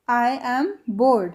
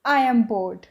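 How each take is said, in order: First: "I am bored" stretched very slowly; drawn out slowly. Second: Said in the usual way. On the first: Shown as a demonstration. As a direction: repeat it slowly to drill. (बहुत धीरे खींचकर) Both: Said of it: "English में कैसे बोलेंगे".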